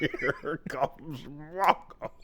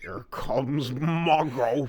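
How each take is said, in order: First: Slow whisper through laughter; laughing whisper. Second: Slow, drawn-out movie line; slow movie quote voice. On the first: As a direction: whisper it slowly, giggling. Quoting again, laughing. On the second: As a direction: drag out the quote slowly. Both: Retold or imitated.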